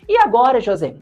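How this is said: It is read with a desperate tone.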